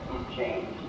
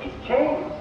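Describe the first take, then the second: First: It is said in a regretful, lamenting tone. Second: It is said in a delighted, approving tone. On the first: The change is a loss to be mourned. "that's not the inflection Whitehead would give" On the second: The change is something to welcome. "Whitehead would say"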